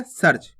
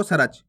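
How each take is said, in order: First: सर्च said quickly as sarch with no vowel after r; correct reading. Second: सर्च drawn out as sa-rach with a full ra; wrong reading with full ra. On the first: Teacher giving pupils the right way, सर्च as sarch. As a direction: snap सर्च out as one syllable. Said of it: "अपन पढ़ कैसे रहे". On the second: Teacher showing pupils the mistake, सर्च as sa-rach. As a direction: say सर्च slowly, giving the r its own vowel. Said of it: "रा का पूर्ण रूप से उच्चारण हो जाएगा इस प्रकार से". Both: Shown as a demonstration.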